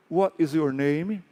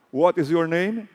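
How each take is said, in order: Both takes have the same delivery.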